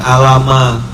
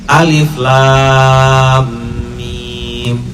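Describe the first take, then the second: First: The letters are run together into one word. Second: Three separate letter names are spoken. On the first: The speaker calls it wrong. "bukan alama" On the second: The speaker calls it right. "itu cara bacanya"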